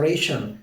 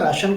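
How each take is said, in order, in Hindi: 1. पहला स्वर 'ay' जैसा बोला जाता है। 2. पहला स्वर 'ah' जैसा बोला जाता है। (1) "इंग्लिश में इसको कहा जाता है रेशन" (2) "हिंदी में राशन कार्ड कहते हैं"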